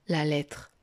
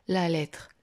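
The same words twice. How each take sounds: The two takes are said the same way.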